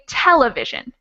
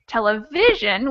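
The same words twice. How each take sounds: First: The stress falls on another syllable. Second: The stress falls on the third syllable. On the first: It breaks the regular stress rule. "which doesn't follow the rule" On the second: It follows the regular stress rule. "which would be the normal or the regular way to say it"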